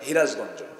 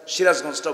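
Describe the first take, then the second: First: The name begins with an h sound. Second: The name begins with an s sound.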